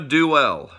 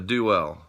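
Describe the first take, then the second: First: The word ends with a heavy, drawn-out L. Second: The word ends with a light, short L. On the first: This is how it is said in the Midwest. The speaker calls it wrong. "the do-L pronunciation ... that heavy L there on the end" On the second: This is how it is said on the East Coast. The speaker calls it right. "how we say it here on the East Coast"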